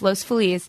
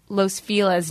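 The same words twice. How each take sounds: First: The name is said in a Spanish-style way. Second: The name is said in an anglicized American way. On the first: This follows how Spanish speakers say it. The speaker calls it right. "but it's Los Feliz" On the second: This is how locals in the city say it now. The speaker calls it wrong. "In LA, people say Los Feliz now"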